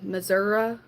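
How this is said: It is said in a rural Southern pronunciation. It is said as a joke, like old country folks. "I don't say Missouri. If I do, I do it jokingly"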